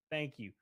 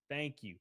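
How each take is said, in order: Both takes have the same delivery.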